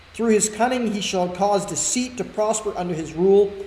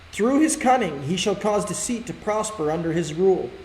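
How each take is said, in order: The two takes are said the same way.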